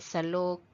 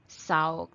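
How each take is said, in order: First: The middle consonant is a clear L sound. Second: The middle consonant is a W sound. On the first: "Salog is floor" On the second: "Sometimes we pronounce this as saug. The letter L will become W"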